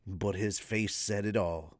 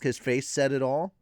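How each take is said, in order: First: Low, soft storytelling; ASMR narration. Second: Said in the usual way. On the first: Acted. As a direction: read it gently, ASMR style. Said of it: "the A S M R voice".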